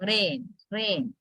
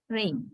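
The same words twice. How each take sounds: First: "rain, rain" with a flat single "eh" vowel, as "ren"; monophthong. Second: "Rain" with an "ay" glide before the n; diphthong. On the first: Teacher showing what learners might think, monophthong in "rain". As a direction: keep the vowel of "rain" free of any glide. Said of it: "we use the monothong". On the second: Teacher showing the diphthong is there, gliding vowel in "Rain". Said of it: "there is a kind of A". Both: Shown as a demonstration.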